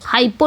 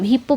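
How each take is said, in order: First: The first vowel is a long 'eye' sound. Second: The first vowel is a short 'i' sound. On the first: This is how the spelling looks. "हाइपो लिखा जाता है" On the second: This is how it is actually read. "हिप्पो पढ़ा जाता है"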